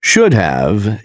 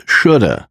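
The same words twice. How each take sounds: First: Said in the usual way. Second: "shoulda" as SHOOD-uh; casual blended "shoulda", no v; reduced should have. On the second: Shown as a demonstration. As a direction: say "shoulda" with only "uh" left of have. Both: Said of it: "is pronounced as".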